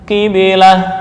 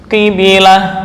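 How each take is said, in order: The two takes are said the same way.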